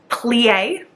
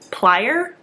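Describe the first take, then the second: First: The word ends on a vowel, without R. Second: The word ends with an R sound. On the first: The speaker calls it wrong. "I want to pronounce it plie" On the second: The speaker calls it right. "it has an R on the end"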